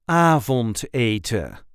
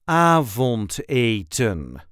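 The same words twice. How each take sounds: First: The final n is left off. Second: The final n is clearly pronounced. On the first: "some people will leave out the n at the end" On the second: "This is the way we say avondeten"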